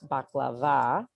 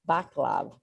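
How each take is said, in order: First: The word ends with a final vowel sound. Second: The word ends without a final vowel sound. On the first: This is the more familiar English way to say it. "not baklava" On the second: This is how local Arabic families say it. "They call it baklav"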